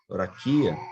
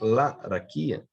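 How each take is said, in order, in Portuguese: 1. A primeira vogal é pronunciada como o. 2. A primeira vogal é pronunciada como a. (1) "não ser, por exemplo" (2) "vai ser laraquia"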